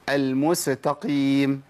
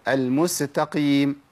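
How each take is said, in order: Both takes have the same delivery.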